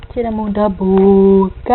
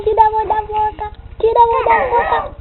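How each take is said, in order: First: Said in the usual way. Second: Muffled, fast, slightly higher; hand over mouth. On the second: Pretend.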